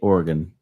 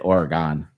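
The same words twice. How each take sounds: First: It uses the pronunciation that local residents use. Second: It uses a pronunciation that local residents avoid. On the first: This is how people from there say it. "in Oregon, they say Oregon" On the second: People from there do not say it this way. "They don't say Oregon"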